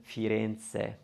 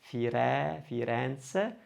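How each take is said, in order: First: Firenze with a closed middle E; narrow, closed middle E in Firenze. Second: Firenze with an open middle E; wide stressed E in the middle of Firenze. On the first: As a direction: say Firenze with a tight stressed E. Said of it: "rather than Firenze". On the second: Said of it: "probably going to open that one". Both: Shown as a demonstration.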